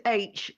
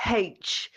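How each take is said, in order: First: Said in the usual way. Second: H said as "haitch", with an audible h at the start; haitch pronunciation. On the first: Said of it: "not H". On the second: Shown as a demonstration. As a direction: sound the h at the front of H: "haitch". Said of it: "it is H".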